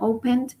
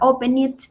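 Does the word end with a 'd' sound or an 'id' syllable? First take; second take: d; id. First: The ending is a plain 'd' sound. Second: The ending is an extra 'id' syllable. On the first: The speaker calls it right. "sino opened" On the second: The speaker calls it wrong. "no se pronuncia open it"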